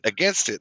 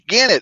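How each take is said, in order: First: The t of 'against' is clearly pronounced. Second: The t of 'against' is dropped. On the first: This is the standard form the listener understands. "oh, against" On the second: This is how locals near Arkansas say it. "The closer you get to Arkansas"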